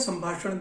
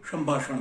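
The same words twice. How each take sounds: First: The word begins with an 's' sound. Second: The word begins with an 'sh' sound. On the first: The speaker calls it right. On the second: The speaker calls it wrong.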